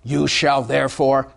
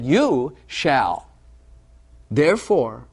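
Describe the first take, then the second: First: It is said as a stern command. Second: It is said as a reassuring promise. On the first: It is a demand the listener must obey. The speaker calls it wrong. "that would be a law" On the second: It describes who the listener already is. The speaker calls it right. "I'm going to read it as a promise"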